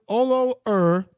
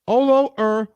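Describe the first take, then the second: No difference in how they are said.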